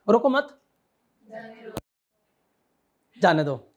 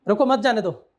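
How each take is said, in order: First: It has a pause inside the phrase. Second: It is said without any pause.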